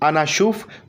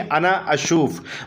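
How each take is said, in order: First: The words run together without the extra 'a'. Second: A light extra 'a' sound starts the second word. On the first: "अगर नहीं भी निकालते हैं, अगर आप बोलते हैं अनाशुफ" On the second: "यहां पर आ इंक्लूड हो जाएगा आगे, लेकिन वो साइलेंट वर्ड्स में रहेगा, हल्का से आपको निकालना पड़ेगा।"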